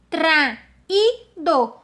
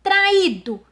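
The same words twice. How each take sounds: First: TRAÍDO broken as "tra... í... do"; three slow separate beats on traído; split into syllables. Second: Said in the usual way. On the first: Shown as a demonstration. Teacher separating the word by rule, syllable by syllable. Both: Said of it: "eu vou separar essas palavras".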